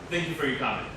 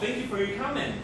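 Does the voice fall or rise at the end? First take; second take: fall; rise. First: The pitch falls at the end. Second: The pitch rises at the end. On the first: The speaker does not want to hear any more. The speaker calls it wrong. "It's like, shut up ... If you go down, it means I don't want to listen" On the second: The speaker is sincerely polite and grateful. The speaker calls it right. "it'd be really nice ... if you go up, it's very polite"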